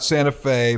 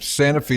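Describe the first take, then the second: First: It is said the usual, widely known way. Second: It is said the local Tennessee way. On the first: This is how the better-known city is named. The speaker calls it wrong. "not Santa Fe" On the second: This is how the home town names itself. The speaker calls it right. "we got to say that from Santa Fe"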